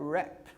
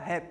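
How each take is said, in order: First: It is said with an English pronunciation. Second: It is said with a Brazilian Portuguese pronunciation. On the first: "Mas em inglês seria rap" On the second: "a gente fala em português aqui no Brasil, a gente fala geralmente fala rap"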